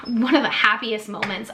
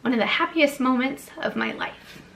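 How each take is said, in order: First: Said in the usual way. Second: Real tears over the best weekend of her life; tearful. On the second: Real, not acted. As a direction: voice catching, near tears. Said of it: "I'm sorry to get emotional".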